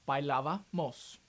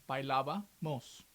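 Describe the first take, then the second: Both takes have the same delivery.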